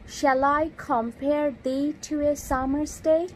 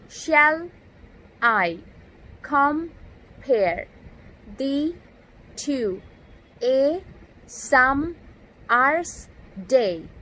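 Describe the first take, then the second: First: Said in the usual way. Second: Each word spoken alone with a pause after it; "Shall I compare thee to a summer's day?" broken into separate stressed and unstressed words; scanning the meter. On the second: Shown as a demonstration. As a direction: tap out the iambic beat word by word, "Shall" up and "I" down. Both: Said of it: "the stressed and unstressed syllable like this".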